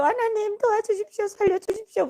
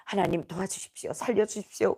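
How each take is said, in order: First: High-pitched desperate retold plea; crying-out prayer. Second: Quiet, lower-pitched retold plea; retold prayer. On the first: Prisoners wailing to God for rescue, desperate high plea. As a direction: beg God urgently, pitch way up. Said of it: "통성 기도를 했던 것 같아요". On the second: Speaker recalls praying for rescue in prison, subdued plea. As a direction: plead softly in a subdued prayer. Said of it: "기도했습니다".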